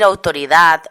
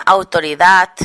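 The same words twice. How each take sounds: First: Autoridad with a soft voiced D at the end; final D kept soft. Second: Autoridad ending in a hard T, "autoridat"; Catalan-style autoridad with a crisp final T. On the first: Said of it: "en lugar de decir autoridad". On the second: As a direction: harden the last sound of autoridad to a voiceless t. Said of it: "articula como sorda". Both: Shown as a demonstration.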